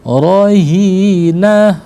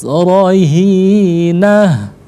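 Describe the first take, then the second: The two takes are said the same way.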